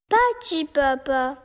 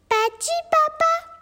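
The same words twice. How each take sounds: First: It falls at the end like a sad statement. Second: It rises at the end like a surprised question.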